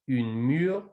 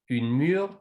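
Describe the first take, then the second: No difference in how they are said.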